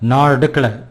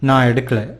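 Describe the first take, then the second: First: It is said in a rough, roguish manner. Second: It is said in a sweet, gentle manner. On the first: A rogue boy is answering. "if it is that rogue boy, he would say" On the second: A sweet girl is answering. "That's sweet girl answering"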